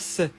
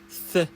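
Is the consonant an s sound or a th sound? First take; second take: s sound; th sound. First: The consonant is a hissing s sound. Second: The consonant is a th sound between teeth. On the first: The speaker calls it wrong. "Attention, pas C" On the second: The speaker calls it right. "tu dois coller ta langue entre tes dents, puis souffler"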